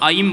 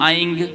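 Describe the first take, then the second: First: The word ends with an m sound. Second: The word ends with an ng sound. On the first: The speaker calls it right. "आप उसको ऐम बोलेंगे" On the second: The speaker calls it wrong. "ये अस्पष्ट है, ये अशुद्ध है"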